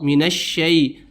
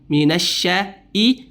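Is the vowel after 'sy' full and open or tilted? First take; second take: tilted; full. First: The vowel after sh is tilted toward e. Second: The vowel after sh is full and open. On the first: The speaker calls it wrong. "memiringkan bunyi huruf shin" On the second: The speaker calls it right. "Seharusnya harus sempurna bunyinya"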